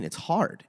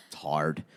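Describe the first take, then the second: First: High, pleading whine on "It's hard."; "It's hard." said high and put-upon; whiny protest. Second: "It's hard." dropped low and soft, mocking; "It's hard." in a low, quiet mocking flatness; flat mocking echo. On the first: Retold or imitated. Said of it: "And I'm like". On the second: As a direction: echo "It's hard." back flatly, unimpressed. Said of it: "And he's like".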